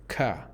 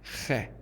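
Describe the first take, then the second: First: It starts with a plain hard k. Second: It starts with a rough throaty rasp. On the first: "I have heard Americans pronounce it ka" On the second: "That's khe"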